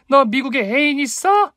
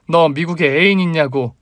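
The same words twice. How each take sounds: First: Very high yelled question, rising on 있어; full-force shout. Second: Higher insistent demand, falling on 있냐고; shouted demand. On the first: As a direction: cry it out for everyone around to hear. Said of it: "젖먹던 힘을 짜내어 복식 호흡으로 외쳤습니다". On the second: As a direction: demand an answer, voice raised. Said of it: "똑바로 쳐다보며 다시 외쳤습니다". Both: A narrator's reading.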